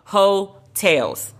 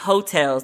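First: It sounds like 'hoe' followed by 'tales'. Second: It sounds like the word 'hotels'. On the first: The speaker calls it right. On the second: The speaker calls it wrong. "not Heaux Tales, like where you stay"

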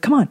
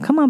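First: It is said in a harsh, impatient tone. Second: It is said in a soft, gentle tone. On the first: The owner is in a hurry and annoyed. The speaker calls it wrong. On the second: The owner is calm and patient with the dog. The speaker calls it right. "It's a gentle"

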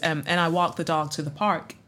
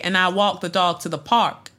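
First: It is spoken in a standard American accent. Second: It is spoken in an African-American accent. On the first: "we want you to do a standard American accent"

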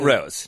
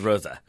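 First: The name ends without a final vowel sound. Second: The name ends with a pronounced final vowel. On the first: The speaker calls it wrong. "Not Rose" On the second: The speaker calls it right. "every single syllable must be pronounced in German"

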